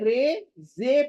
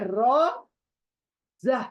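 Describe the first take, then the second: First: The letter names end in an 'e' vowel. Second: The letter names end in an 'a' vowel. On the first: This is how the letters are named in Urdu. "जैसे कि उर्दू में रे जे पढ़ते हैं" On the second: This is how the letters are named in Arabic. "लेकिन अरबिक में रॉ जा"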